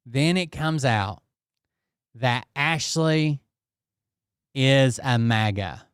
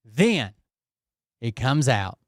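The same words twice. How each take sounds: First: Slow, with pauses before "maga"; dramatic slow reveal. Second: Said in the usual way. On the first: Shown as a demonstration. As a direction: draw out "Then it comes out that Ashley is a maga" like a big reveal.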